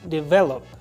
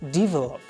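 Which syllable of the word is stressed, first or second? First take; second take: second; first. First: The stress is on the second syllable. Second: The stress is on the first syllable. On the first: The speaker calls it right. "The stress is on the V E" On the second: The speaker calls it wrong. "put this stress on the first D E. They say develop. This is wrong"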